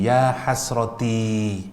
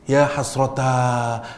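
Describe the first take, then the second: First: The last word ends with an 'i' sound. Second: The last word ends with an 'a' sound. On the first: It sounds like a smile, as if happy. "Asal kalimat ini ngomongnya begini" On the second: It expresses misery and regret. "ti diganti a"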